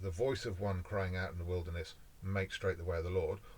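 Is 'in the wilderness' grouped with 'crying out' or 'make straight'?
crying out. The pause falls after 'in the wilderness'.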